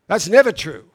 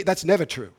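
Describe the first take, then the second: First: "That's never true" repeated much louder, never hit hard; stress on never. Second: Said in the usual way. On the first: Shown as a demonstration. Preacher insisting to the congregation, loud stress on never. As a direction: hammer the word never home.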